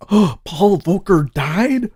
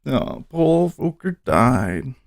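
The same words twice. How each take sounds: First: Gasping, slow and higher, caught off guard by the news; stunned question at a headline; shocked surprise. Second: Slow and softer, letting the news sink in; quiet sombre repeat of the headline; subdued sadness. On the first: Streamer spots headline that Paul Volcker died, stunned surprise. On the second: Streamer rereads Volcker death to viewers, hushed and sad. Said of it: "Oh, that's so sad". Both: Real, not acted.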